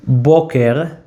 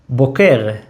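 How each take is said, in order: First: BO-ker, weight on the first syllable; stress on first syllable. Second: Bo-KER, weight on the second syllable; stress on last syllable. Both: Shown as a demonstration. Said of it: "different stress".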